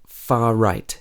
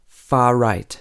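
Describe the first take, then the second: No difference in how they are said.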